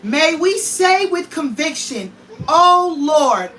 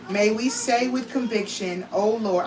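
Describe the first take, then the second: First: It is read forcefully, with strong conviction. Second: It is read in a plain, flat way.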